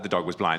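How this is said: It is said with a disdainful tone. The speaker seems scornful of the situation. The speaker calls it wrong.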